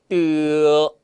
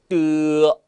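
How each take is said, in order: The two takes are said the same way.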